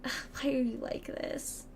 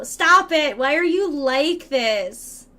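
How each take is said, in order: First: Slow, breathy mock despair; defeated whisper. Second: Loud, drawn-out exasperation; mock scolding. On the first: Streamer despairing at a viewer, in a defeated whisper. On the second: Streamer telling off a chatty viewer, in mock exasperation. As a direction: plead loudly, stretching the words out.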